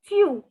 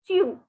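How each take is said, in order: Both takes have the same delivery.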